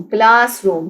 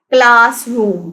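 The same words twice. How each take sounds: First: Said in the usual way. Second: classroom slowly split into class and room; syllable by syllable. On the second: Shown as a demonstration. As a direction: stretch both halves of classroom. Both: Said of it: "classroom के भी टू syllables हैं".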